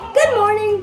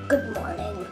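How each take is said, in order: First: The greeting sounds cheerful and lively. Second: The greeting sounds flat and bored. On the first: "Why does he sound happy" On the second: "And then he sounds super bored"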